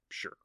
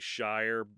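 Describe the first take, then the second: First: It sounds like the word 'sure'. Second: It rhymes with 'fire', like 'shy-er'. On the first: This is how the word ending is meant to sound. "it's pronounced sure" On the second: This is how Americans read the word. "when Americans see the word shire, they say shire"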